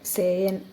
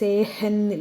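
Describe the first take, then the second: First: No h sound is heard in the middle. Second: An h sound is heard in the middle. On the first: The speaker calls it right. "അങ്ങനെ സൈലൻ്റ് ഉണ്ട്" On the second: The speaker calls it wrong. "സേഹൻ ഇല്ല"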